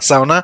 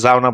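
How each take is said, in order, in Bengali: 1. শব্দটি S ধ্বনি দিয়ে শুরু হয়। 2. শব্দটি Z ধ্বনি দিয়ে শুরু হয়।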